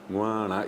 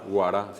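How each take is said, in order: First: The word is said with nasalized sounds. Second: The word is said with only oral sounds. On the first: The speaker calls it right. "es doble nasal" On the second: The speaker calls it wrong. "guará sería si es que ... toda esa palabra se pronuncia de manera oral"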